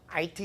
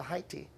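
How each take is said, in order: First: It begins with a vowel and no h sound. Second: It begins with a clear h sound. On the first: The speaker calls it wrong. "우리가 보통 아이티라고 그러지 않습니까?" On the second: The speaker calls it right. "근데 영어 발음은 하이티예요"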